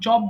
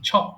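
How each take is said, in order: First: The first consonant has no puff of air. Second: The first consonant has a puff of air. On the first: The speaker calls it wrong. "আমি কিন্তু চপ বলি নাই" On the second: The speaker calls it right. "আমি ছ বলেছি"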